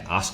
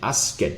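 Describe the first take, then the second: First: The ending is dropped, leaving no final sound. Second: The ending is said as an extra syllable. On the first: "I'm just not pronouncing anything at all" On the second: "I'm adding this extra syllable over here"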